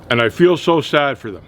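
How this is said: It is said with a straight face.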